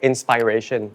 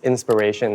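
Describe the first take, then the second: First: It is pronounced the way Thai speakers say it. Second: It is pronounced the standard English way. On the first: The speaker calls it wrong. "most of people will be like inspiration" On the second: The speaker calls it right. "but it's inspiration"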